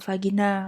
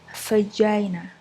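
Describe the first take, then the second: First: It is pronounced with Indonesian sounds. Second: It is pronounced with English sounds. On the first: "kita bisa biasa bilang vagina" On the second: "pengucapan bahasa Inggris yaitu vagina"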